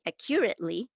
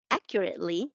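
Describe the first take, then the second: First: "accurately" stressed on the second syllable, a-KYUR-it-lee; non-native a-KYUR-it-lee for "accurately"; old mispronunciation. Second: "accurately" stressed on the first syllable, AK-yur-it-lee; careful AK-yur-it-lee for "accurately"; corrected pronunciation. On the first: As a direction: shift the stress in "accurately" onto CUR. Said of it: "which I used to say". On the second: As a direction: say "accurately" the standard way, stress up front. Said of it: "have corrected my pronunciation of". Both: Shown as a demonstration.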